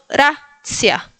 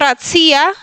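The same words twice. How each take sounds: First: The stress is on the first syllable. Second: The stress is on the second syllable. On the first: The speaker calls it right. "en la primera sílaba" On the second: The speaker calls it wrong. "No racia"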